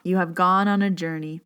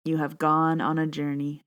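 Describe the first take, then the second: First: Composed again after choking up; gathered, even meditation voice; steadied meditation read. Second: Fighting back tears as she begins; first line cut short by emotion; choking up. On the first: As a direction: restart the line calmly. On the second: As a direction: voice catching on tears. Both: Real, not acted. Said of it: "Can't even say the first line".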